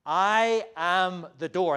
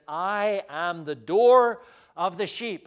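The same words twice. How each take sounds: First: Slow and loud, stressing I; emphatic. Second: Slow, loud, weighty declaration; emphatic. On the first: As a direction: lay heavy weight on "I", slowly. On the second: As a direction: lean on every word, slowly. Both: Retold or imitated. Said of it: "And that's very emphatic".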